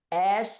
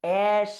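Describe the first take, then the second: No difference in how they are said.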